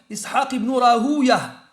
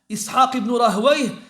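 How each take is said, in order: First: The last name ends with an 'uya' sound. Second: The last name ends with a 'wayh' sound. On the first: This is how the hadith scholars pronounce it. "Chez les Muhaddithin, ils disent c'est Ouwa" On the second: This is how the grammarians pronounce it. "chez les Nahwiyin, ils disent c'est Wayh"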